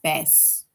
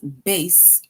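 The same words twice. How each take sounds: First: The vowel does not rhyme with case. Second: The vowel rhymes with the word case. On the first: It names a kind of fish. "It's like bass" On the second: It names the largest string instrument. "bass rhymes with case"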